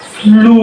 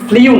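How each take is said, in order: First: The vowel is a plain 'oo' without glide. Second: The vowel has a 'y' glide, like 'yoo'. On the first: The speaker calls it right. "এটা হচ্ছে ফ্লু।" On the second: The speaker calls it wrong. "কিন্তু ফ্লু না"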